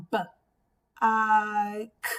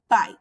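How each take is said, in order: First: "B, I, K" as separate sounds, b, long i, k; "B, I, K" tapped out phonetically, the "I" held; sounded out. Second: Said in the usual way. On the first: Shown as a demonstration. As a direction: break "B, I, K" apart with a pause after each sound. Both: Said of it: "you can tap out the word".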